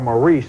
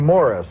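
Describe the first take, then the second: First: The name is pronounced the American way. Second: The name is pronounced the English way. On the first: "as we would say it in America" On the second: "they say Morris in England"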